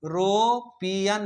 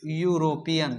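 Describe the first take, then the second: First: एरोपियन with a plain e sound at the start, no y glide; एरोपियन with an e start, shown as wrong; wrong pronunciation. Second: यूरोपियन starting with a clear yoo sound; यूरोपियन with a yoo start, shown as correct; correct pronunciation. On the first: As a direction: say एरोपियन as the mistake to avoid, starting on e. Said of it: "अब हम इसको एरोपियन नहीं पढ़ते हैं". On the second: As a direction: say यूरोपियन as you-ro-pi-yan, y glide first. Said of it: "हम पढ़ते हैं यूरोपियन". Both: Shown as a demonstration.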